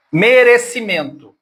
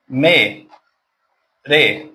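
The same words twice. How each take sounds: First: Said in the usual way. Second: "Merecimento" slowly as me, re, ci, men, to with pauses; five isolated beats in "Merecimento"; split into syllables. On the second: Shown as a demonstration. Teacher giving a polysyllable example, "Merecimento" syllable by syllable. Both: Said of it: "Quantas sílabas tem?".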